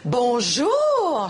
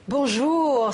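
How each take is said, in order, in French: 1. Le bonjour sonne surpris. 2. Le bonjour sonne chaleureux et amical. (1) "je suis surprise de te voir" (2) "c'est bon de te voir"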